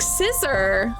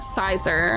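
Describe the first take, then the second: First: The first syllable sounds like 'sis'. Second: The first syllable sounds like 'sigh'. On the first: The speaker calls it right. "Pronounce it like scissor" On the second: The speaker calls it wrong. "I've always said sizer"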